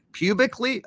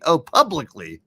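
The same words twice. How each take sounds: First: Says "pubically" laughing, higher; wrong word "pubically"; slip of the tongue. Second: "publicly" said right, louder; corrected "publicly"; correction. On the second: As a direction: fix it to "publicly" quickly. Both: Real, not acted.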